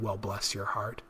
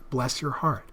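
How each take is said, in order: First: It is said in a mocking, insulting tone. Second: It is said in a warm, sincere tone.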